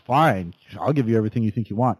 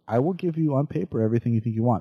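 First: It is said in an angry tone. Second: It is said in a calm tone.

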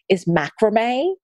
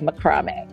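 First: Said with the speaker's own usual pronunciation. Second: Said the British way, like a martial art name.

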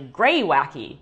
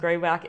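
First: The word ends with an added 'ee' vowel. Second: The word ends after 'wack' with no final vowel. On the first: The speaker calls it right. "the way you pronounce ... is actually Gray Wacky" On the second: The speaker calls it wrong. "what I was always calling Gray Wack"

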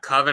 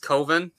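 First: The first vowel rhymes with 'oven'. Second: The first vowel rhymes with 'over'. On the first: The speaker calls it wrong. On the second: The speaker calls it right.

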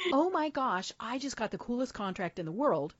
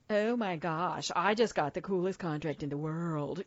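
First: It sounds sincere and genuinely happy. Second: It sounds smug, with a bragging tone.

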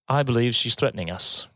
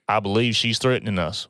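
First: It is said in a non-Western accent. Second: It is said in a Western cowboy drawl.

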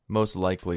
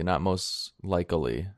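First: It is said with its normal syllables. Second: It is said with an extra syllable inserted. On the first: The speaker calls it right. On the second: The speaker calls it wrong.

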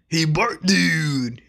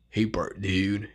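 First: It is an impression of Otto from The Simpsons. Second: It is an impression of Snake from The Simpsons.

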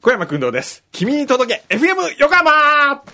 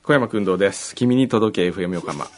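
First: It is said with lively, projected energy. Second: It is said flatly with little energy.

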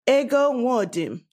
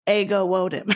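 First: It is said with a Nigerian accent. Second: It is said with an American accent.

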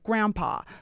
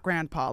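First: The first syllable sounds like gram. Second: The first syllable sounds like grand. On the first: "like gram, like a graham cracker" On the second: "not grandpa"

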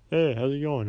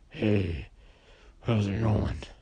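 First: It is said in a normal human voice. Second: It is said in a gurgling, growly wolf voice.

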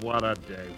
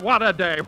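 First: It is groaned in a gloomy, tired voice. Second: It is said in a cheerful, delighted voice. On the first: He feels miserable before breakfast. "He opens one eye and groans" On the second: He feels happy after a good breakfast. "and then you hear something like this"

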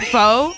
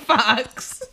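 First: The word ends in a plain vowel sound. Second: The word ends in a ks sound. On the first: The speaker calls it right. "faux is pronounced faux" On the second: The speaker calls it wrong. "not fox"

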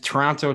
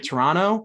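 First: The last T is clearly pronounced. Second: The last T is dropped.

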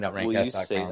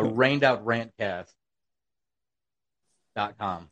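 First: It is said fast. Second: It is said slowly.

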